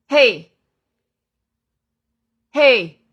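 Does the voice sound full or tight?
full. The voice is full, deep and well supported. The speaker calls it right. "你听这个声音很有底气，非常雄浑有力"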